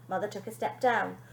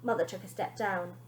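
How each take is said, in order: Both takes have the same delivery.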